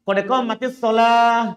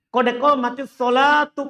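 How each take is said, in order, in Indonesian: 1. Kata terakhir berakhir lembut dengan bunyi h. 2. Kata terakhir berakhir dengan huruf t dan vokal u. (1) "Cara berhentinya" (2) "kalau kita mau sambung lafaz pertama ini dengan kedua, maka tuh"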